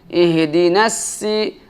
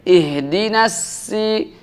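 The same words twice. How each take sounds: Both takes have the same delivery.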